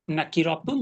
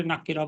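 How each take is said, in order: First: "নাকিরাতুন" with the final "-তুন" sounded; full ending. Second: "নাকিরা" ending on an open "-রা"; pausal form. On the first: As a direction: say "নাকিরাতুন" without the pausal cut. ("নাকিরাতুন" শেষের "তুন" সহ পূর্ণ উচ্চারণ) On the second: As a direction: stop on "নাকিরা", dropping the "-তুন". ("নাকিরা" ওয়াকফ করে) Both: Shown as a demonstration. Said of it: "ওয়াকফ করে নাকিরা বলতে পারি".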